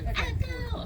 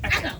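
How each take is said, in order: First: The word is said slowly and drawn out. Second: The word is said very quickly. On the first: The speaker calls it wrong. "not echo" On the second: The speaker calls it right. "you have to say it super fast"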